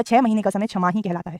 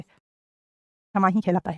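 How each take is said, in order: First: Said in the usual way. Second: क्षमा ही कहलाता है drawn out slowly and softly for copying; slow dictation pace. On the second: Shown as a demonstration.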